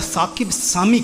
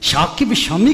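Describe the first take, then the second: First: The names begin with an s sound. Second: The names begin with a sh sound. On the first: "या साकिब सामी कहेंगे" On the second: "शाकिब शामी कहेंगे"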